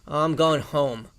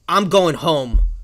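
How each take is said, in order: First: The voice sounds relaxed. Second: The voice sounds timid.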